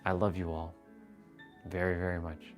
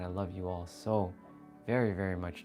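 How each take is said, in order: First: It is said flatly, with low energy. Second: It is said warmly, with high energy.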